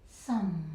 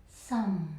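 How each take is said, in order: The two takes are said the same way.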